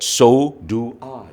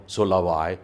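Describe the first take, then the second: First: "So do I" slow, with do pressed hard; stress on do. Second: Said in the usual way. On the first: Shown as a demonstration. Teacher showing the class emphasis on do. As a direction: lean into do, slowly. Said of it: "Your emphasis is added". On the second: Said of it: "instead of saying".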